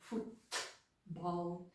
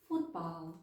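First: The T is released with a burst of air. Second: The T is held back and glides into B. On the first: The speaker calls it wrong. "нейтіви не кажуть football" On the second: The speaker calls it right. "Вони кажуть football. Ніби звук Т знову ж таки затримується в роті"

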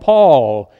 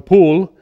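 First: The vowel is long and drawn out. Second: The vowel sounds like 'oo', British style. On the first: "down in Texas, they call him Paul, and they drag it out" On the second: "the English speak one way, and they call my older brother Poole"

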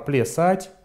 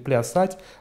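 First: The first vowel sounds like an e-like vowel. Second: The first vowel sounds like a clear a. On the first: This is how the dialect now pronounces it. "гласный «а» ... перестает выделяться" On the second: This is the pronunciation the dialect no longer uses. "произносит уже не «плясать»"

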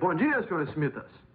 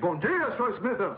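First: It is said at fairly normal loudness. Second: It is bellowed very loudly.

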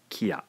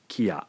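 First: It is said as two separate syllables. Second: The same.

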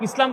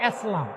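First: The first vowel sounds like 'i'. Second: The first vowel sounds like 'e'. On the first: The speaker calls it right. "ইসলাম বলে না" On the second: The speaker calls it wrong. "কি বলে? এসলাম"

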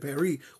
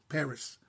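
First: The final s is silent. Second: The final s is pronounced. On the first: This is how French speakers say it. "the French said Paris" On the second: This is how English speakers say it. "because we pronounce the S"

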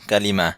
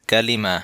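First: The word ends softly, like an 'h' sound. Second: The same.

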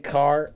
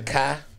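First: The word is said in a plain accent. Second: The word is said in a Southern accent. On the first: "they don't say car" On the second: "down south, They say car"

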